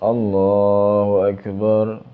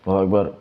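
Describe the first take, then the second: First: The phrase is said slowly and drawn out. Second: The phrase is said quickly and hurriedly. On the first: The prayer still lacks the required stillness. "Ini ono sing pelan tapi gak tumak nina" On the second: The prayer lacks the required stillness. "Kalau kalau cepat kan sudah otomatis gak gak ada tumak nina"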